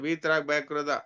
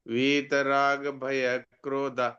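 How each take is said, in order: First: The phrase is spoken quickly and hurriedly. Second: The phrase is spoken slowly and carefully. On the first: The speaker calls it wrong. "आप बोलते हैं ... वो जल्दी में गड़बड़ हो जाता है" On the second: The speaker calls it right. "जैसे मैं बोलता हूँ"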